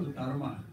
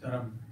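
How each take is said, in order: First: The word ends with an added 'a' vowel. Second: The word ends on the consonant 'm'. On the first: The speaker calls it wrong. "we are very fond of adding A" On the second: The speaker calls it right. "the Sanskrit pronunciation is Dharam. There's no A at all"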